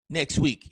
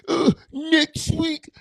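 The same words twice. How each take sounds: First: Said in the usual way. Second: High, slow lisping repeat; mocking his own lisp, pitched up and stretched. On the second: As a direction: redo the phrase with a put-on lisp, drawn out. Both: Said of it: "I sounded like I had a lisp".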